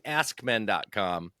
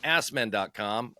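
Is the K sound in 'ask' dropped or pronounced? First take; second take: pronounced; dropped. First: The K in 'ask' is clearly pronounced. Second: The K in 'ask' is dropped. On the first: "I'm not hearing ask men dot com" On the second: "I'm not hearing a real pronunciation of a K in there"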